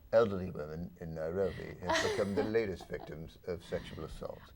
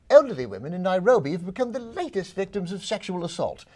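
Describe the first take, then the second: First: It is read in a flat, dull way. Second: It is read with lively, engaged energy.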